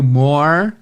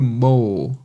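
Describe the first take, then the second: First: The final R sound is clearly pronounced. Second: The final R sound is dropped. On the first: This is the version the listener expects. "você está esperando ouvir o more" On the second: This is the British version the listener actually hears. "no sotaque britânico esse R não tem"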